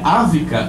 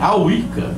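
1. A consoante do meio é som de v. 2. A consoante do meio é som de w. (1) "não é Ávica" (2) "é Awica"

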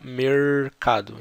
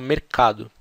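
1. É dito com sotaque do interior, do campo. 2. É dito com sotaque de São Paulo. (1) "no interior se fala mercado" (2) "Aqui em São Paulo a gente fala mercado"

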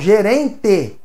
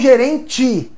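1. A vogal final soa como 'e'. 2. A vogal final soa como 'i'. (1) "Com E no final" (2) "não gerente"

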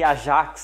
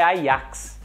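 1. É pronunciado com a pronúncia do português brasileiro. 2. É pronunciado com a pronúncia original, não brasileira. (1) "Nós brasileiros gostamos de falar o nome Ajax" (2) "Mas o certo é Ajax"

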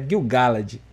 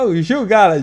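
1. Gil soa como o nome inglês, ao contrário do português. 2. Gil soa como o nome português Gil. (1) "mas é Gil Galad" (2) "Ele é amigo de um cantor"

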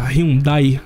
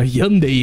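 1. O nome é dito com uma pronúncia em estilo português. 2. O nome é dito com a pronúncia original. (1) "vamos falar no modo português mesmo" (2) "a pronúncia correta que seria Hyundai"

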